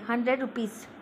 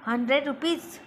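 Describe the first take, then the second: First: It is said as a statement. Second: It is said as a question. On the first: It states a fact. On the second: It echoes the statement in surprise or to check.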